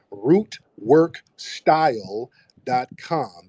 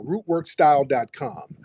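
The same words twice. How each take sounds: First: Root work style dot com, each word slow and spaced; slow spelled-out URL. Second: Said in the usual way. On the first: Shown as a demonstration. Plugging the website to viewers, slow and deliberate. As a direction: read the web address slowly so viewers catch it. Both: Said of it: "dot, no".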